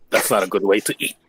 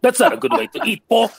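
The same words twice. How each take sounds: First: Lower-pitched, measured in-character line; in-character remark. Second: Mock scolding, pitched well up; high-pitched scolding. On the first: Acted. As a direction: say it low and understated. In-character quip, first take. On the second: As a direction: chide Paul in a high playful voice. In-character quip repeated, pitched up.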